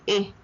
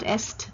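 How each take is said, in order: First: The word ends on a vowel, no s. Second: The word ends with an audible s sound. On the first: The speaker calls it right. "but e" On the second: The speaker calls it wrong. "Est is not est"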